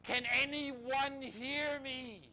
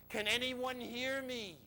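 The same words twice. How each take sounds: First: Higher, louder, long-stretched call; crying out louder. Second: High, drawn-out call for help; crying out. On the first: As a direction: repeat the acted call for help with more force. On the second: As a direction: call slowly across a mountain, acting it out. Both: Retold or imitated. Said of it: "and then he cries".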